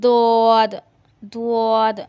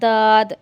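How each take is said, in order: First: It has rounded lips and a 'wa'-like sound. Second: It sounds like a heavy, plain 'd'. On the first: "उआ उआ जैसी आवाज नहीं निकालनी, या होंठों को ऐसे गोल नहीं करना। ... ये तरीका गलत है।" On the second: "ये तरीका भी गलत है। ... दाल का मोटा पढ़ रहे हैं।"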